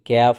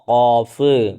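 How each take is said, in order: First: It starts with a light k sound. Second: It starts with a deep throat q sound. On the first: The speaker calls it wrong. "ക്യാഫ് എന്ന് പറയരുത്" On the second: The speaker calls it right. "ഖാ ഖാഫ്"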